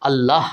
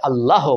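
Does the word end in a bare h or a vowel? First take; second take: bare h; vowel. First: The word ends on a bare h sound. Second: The final h is followed by an o vowel. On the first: The speaker calls it right. "হ অ শেষে টান হচ্ছে না" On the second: The speaker calls it wrong. "অনেকে আবার ভুলভাবে আল্লাহ বলে থাকেন"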